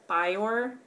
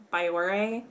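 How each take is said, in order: First: Biore said in two syllables, like "bye-or"; alternative pronunciation. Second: Biore ending in a clear "ay", like "bye-or-ay"; alternative pronunciation. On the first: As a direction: say Biore without the final "ay", questioning rise. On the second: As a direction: say Biore with a final "ay", questioning rise. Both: Shown as a demonstration. Trying two pronunciations of brand.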